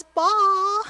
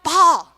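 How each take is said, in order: First: "Ball" asked up high with a hesitant upward question; a hopeful, unsure "Ball?" rising at the end; timid ask. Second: "Ball" called loud and firm, falling at the end; a sure, louder "Ball!" that expects the pass; confident demand. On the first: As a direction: ask for "Ball" as if hoping someone notices. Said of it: "Like, maybe someday, possibly, would you consider me?". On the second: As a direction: claim "Ball" like you're ready for it. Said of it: "I'm ready for it, I'm hungry for it". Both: Shown as a demonstration.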